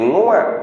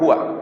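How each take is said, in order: First: The word begins with an ng sound. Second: The word begins with an h sound. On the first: The speaker calls it wrong. "Bukan nguak" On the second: The speaker calls it right.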